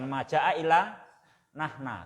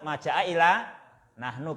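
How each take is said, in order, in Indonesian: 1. Kata terakhir berakhir dengan vokal 'a'. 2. Kata terakhir berakhir dengan vokal 'u'. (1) "bukan maja'a illa nahna" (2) "tetap maja'a ila nahnu"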